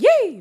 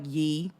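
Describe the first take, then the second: First: It is said with a high pitch. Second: It is said with a lower pitch.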